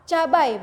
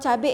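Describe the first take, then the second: First: The word ends in an 'ai' sound. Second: The word ends in an 'e' sound. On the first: This is the standard form. The speaker calls it right. "Yang bakunya adalah ca cabai" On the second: This is the informal everyday form. The speaker calls it wrong. "itu bukan cabe sebenarnya"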